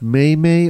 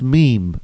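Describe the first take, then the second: First: The word is said as two syllables. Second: The word is said as one syllable. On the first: The speaker calls it wrong. "not may-may" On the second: The speaker calls it right. "It's pronounced meme"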